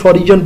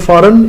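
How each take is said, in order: First: It is said with a 'j' sound inside. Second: It is said without any 'j' sound. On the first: The speaker calls it wrong. "इसको अक्सर बच्चे फॉरिजन पढ़ते हैं" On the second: The speaker calls it right. "गैर मुल्की की English होती है फ़ॉरेन"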